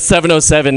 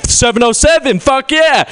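First: Said in the usual way. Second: High, hammed-up hometown pride shout; whooping mock excitement; overexcited local. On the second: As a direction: cheer it like a rabid fan. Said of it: "gets really excited about its own area code".

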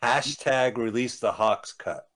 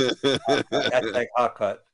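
First: Slow, deadpan hashtag slogan; drawn-out slogan read. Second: Very slow, laughing through it. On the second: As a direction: chuckle out the slogan slowly. Repeats slogan laughing. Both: Real, not acted.

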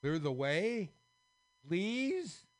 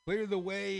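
First: Loud, rising to a very high please; beg, frightened; scared plea. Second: Loud, much higher demand; yelled. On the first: Scared kings pleading with the squares, begging. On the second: Kings demanding the way be cleared, yelled. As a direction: yell it as a command. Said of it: "yelled the kings again". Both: Acted.

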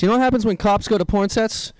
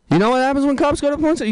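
First: Said in the usual way. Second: Higher and faster, pushing the question; comic asks the crowd again, excited and fast; excited repeat. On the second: Shown as a demonstration. Excited, faster repeat to the crowd. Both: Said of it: "repeats question".

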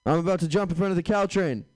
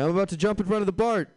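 First: Higher, louder mock distress; prank caller voice. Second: Much higher, faster, louder; prank caller voice. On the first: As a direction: fake a dramatic threat. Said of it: "and say". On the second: Retold or imitated. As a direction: rush it out in mock panic. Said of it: "They'll say".

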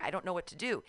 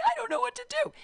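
First: Said in the usual way. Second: Louder, whimpering mock sob; mock crying. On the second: Stranded at the medical tent, she retells her crying plea. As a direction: retell the helpless crying, a bit hammed up. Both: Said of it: "And so I start crying".

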